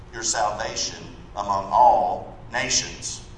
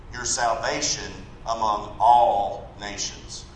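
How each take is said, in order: No difference in how they are said.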